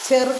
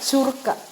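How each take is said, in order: First: The first vowel sounds like 'e'. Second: The first vowel sounds like 'u'. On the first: The speaker calls it wrong. "ചെറുക്ക അല്ല" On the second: The speaker calls it right.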